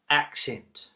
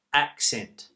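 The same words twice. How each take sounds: The two takes are said the same way.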